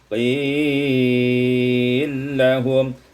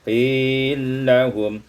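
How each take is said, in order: First: The long vowel is held a moderate time. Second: The long vowel is held only briefly.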